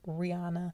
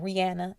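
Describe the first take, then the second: First: The name is said in the popular pronunciation. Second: The name is said as its owner says it. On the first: The speaker calls it wrong. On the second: The speaker calls it right.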